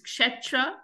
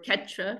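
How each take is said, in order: First: It is said with a standard Sanskrit pronunciation. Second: It is said with a Bengali pronunciation.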